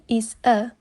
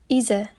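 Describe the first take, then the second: First: The two words are said separately. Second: The z sound runs into the next word. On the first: "instead of" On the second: "the last sound of the first word, which is z, is combined with the next word"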